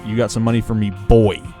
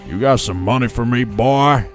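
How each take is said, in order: First: Spoken without the imitated character's accent. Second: Spoken in the imitated character's accent. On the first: The speaker calls it wrong. "He don't say, ... That is not Mister Morgan" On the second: The speaker calls it right. "He says"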